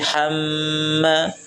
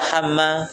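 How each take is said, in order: First: The sound is held and lengthened. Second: The syllables are rushed and short. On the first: The speaker calls it right. "ditahan dan dipanjangkan dua rakaat" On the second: The speaker calls it wrong. "Jangan tergesa-gesa"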